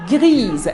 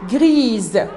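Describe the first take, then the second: First: The final consonant is a voiced z sound. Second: The final consonant is a voiced z sound.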